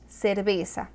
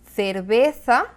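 First: It is said with a Latin American accent. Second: It is said with a Spanish accent from Spain.

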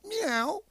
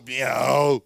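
First: The meow sounds happy. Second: The meow sounds sad.

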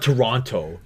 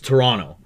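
First: English-style saying, with the second T clearly pronounced. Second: Local Toronto accent, with the second T dropped.

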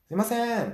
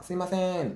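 First: The call is said louder than a slightly raised voice. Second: The call is said in a slightly raised voice. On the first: A second attempt after not being heard. "さっきよりもちょっと声を大きくして" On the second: A polite first attempt to get attention. "少し大きな声で店員さんを呼ぶわけですよ"

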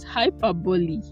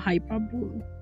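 First: The word ends like the word epitome. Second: The word ends unlike the word epitome. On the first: The speaker calls it right. "just like epitome, it is hyperbole" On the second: The speaker calls it wrong. "not hyperbole"

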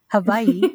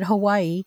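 First: The word is said in a native-style pronunciation. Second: The word is said in the local everyday pronunciation. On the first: This is meant as the proper original pronunciation. "I hope I'm saying it right" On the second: This is how people locally say it. "Or as here they call it"

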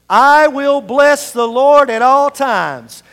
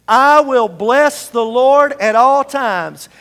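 The two takes are said the same way.

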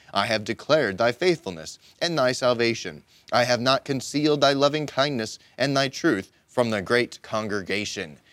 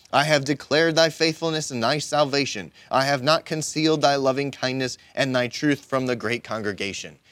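No difference in how they are said.

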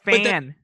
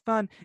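First: The vowel sounds like the a in cat. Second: The vowel sounds like the u in cup. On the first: It sounds like a local American speaker. The speaker calls it right. "It's fan" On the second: It gives away a non-American speaker. The speaker calls it wrong. "No one says fun"

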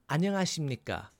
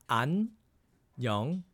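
First: It is said quickly. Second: It is said slowly.

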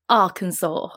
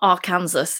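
First: It is pronounced differently from its spelling. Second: It is pronounced just as it is spelled. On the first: The speaker calls it right. "it's Arkansas" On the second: The speaker calls it wrong. "I pronounce it as I read it, and yeah, it's not pronounced like that. It's not Arkansas"

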